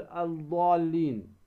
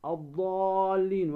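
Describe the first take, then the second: First: "الضالين" said al-ḍaallin, with an audible article L; wrong, sounded lam. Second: Slow "الضالين" as aḍ-ḍaallin, long held aa; lam assimilated. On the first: Tajwid teacher showing what not to say, "الضالين" as al-ḍaallin. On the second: Tajwid teacher showing the sun lam, "الضالين" as aḍ-ḍaallin. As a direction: drop the first L and stretch "الضالين". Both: Shown as a demonstration. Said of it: "ولا تقل الضالين".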